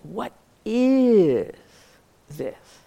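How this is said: The stress is on "is".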